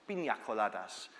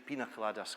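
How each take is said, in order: First: "Pina coladas" as peenya coladas, pitched lower; Spanish-style "Pina coladas"; Spanish pronunciation. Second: "pina coladas" the easy English way, as peena coladas; English-style "pina coladas"; anglicised pronunciation. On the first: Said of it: "from a Spanish-speaking country". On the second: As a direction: say "pina coladas" with a plain n, no ny sound. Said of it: "we just decided to change it to". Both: Shown as a demonstration.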